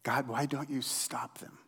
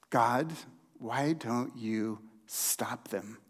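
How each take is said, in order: First: Whispered, pleading why; frustrated whisper. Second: Low, slow, softened plea to God; quiet frustration. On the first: Pastor voicing Habakkuk's complaint to God in a frustrated whisper. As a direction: push the frustration out in a rasping whisper. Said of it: "the frustration in Habakkuk's voice". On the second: Pastor voicing Habakkuk's plea to God, low and slow. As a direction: let the frustration sink into a quiet ask. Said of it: "can you hear the frustration in Habakkuk's voice". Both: Acted.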